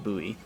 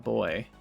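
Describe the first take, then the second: First: It is said as two syllables, like gooey. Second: It is said as one syllable, like toy. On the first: "Buoy like gooey" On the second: "call it a boy"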